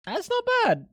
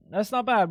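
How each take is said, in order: First: Squeaky high exclamation. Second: Said in the usual way. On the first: Acted. Streamer reacting to a food picture, high squeaky mock voice. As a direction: pitch it way up into a squeak. Same words said twice.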